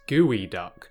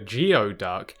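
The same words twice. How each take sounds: First: The word is pronounced unlike its spelling. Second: The word is pronounced the way it is spelled. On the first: The speaker calls it right. "it's actually pronounced geoduck" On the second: The speaker calls it wrong. "it looks like it's called a geoduck"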